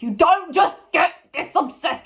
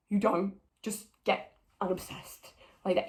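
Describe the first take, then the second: First: High, loud exasperated protest; exasperated outburst. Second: Restrained exasperation. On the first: Ranting at the show about Eve's obsession, exasperated. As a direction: protest it loudly, pitched right up. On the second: Ranting at the show about Eve, quietly exasperated. Repeats the protest, held back. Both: Real, not acted.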